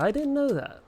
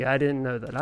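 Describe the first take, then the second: First: Much higher, sing-out pitch; playful high-pitched repeat. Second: Said in the usual way. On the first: Pretend. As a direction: swoop way up on the repeat. Repeats line in exaggerated high voice.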